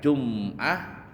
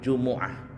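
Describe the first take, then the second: First: The m is followed directly by the next consonant. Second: The m is followed by a short u vowel. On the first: "Boleh dibaca Jum'ah bisukunil mim ya" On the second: "Boleh juga bidhammah mim"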